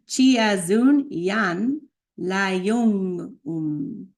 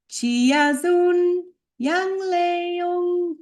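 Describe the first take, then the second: First: Spoken, with pauses between the parts; careful piece-by-piece pronunciation demo; slow spoken breakdown. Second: Slow chant on high, held notes; sustained chanting of the name; intoned chant. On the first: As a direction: speak it slowly, word by word. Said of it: "This one's a little tricky". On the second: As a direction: sing it out, stretching each syllable. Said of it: "important to intonate as best as you can". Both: Shown as a demonstration.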